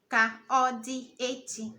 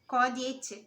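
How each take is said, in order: First: The first word keeps its vowel, said separately. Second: The first vowel drops, merging into one word. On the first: "Ka is ka, it spelled ka" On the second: "you are removing the a from the ka"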